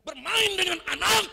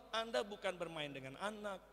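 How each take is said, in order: First: "Bermain dengan anak" much higher and louder, rising on "anak"; emphatic contrast. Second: Said in the usual way. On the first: Shown as a demonstration. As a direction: belt out "Bermain dengan anak" to set it apart. ("Bermain dengan anak" diserukan tinggi dan keras, naik di "anak") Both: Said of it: "itu beda".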